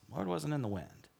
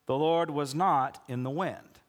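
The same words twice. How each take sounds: First: A quiet, pointed repeat; hushed emphasis. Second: Said in the usual way. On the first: Shown as a demonstration. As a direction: drop the volume and lean on each word. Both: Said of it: "you gotta pay attention to this".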